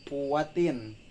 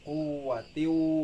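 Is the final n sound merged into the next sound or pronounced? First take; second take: pronounced; merged. First: The final n sound is pronounced clearly. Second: The final n sound is merged into w. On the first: The speaker calls it wrong. "bukan kuwatin" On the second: The speaker calls it right. "tetapi kuwatiu wala nasir"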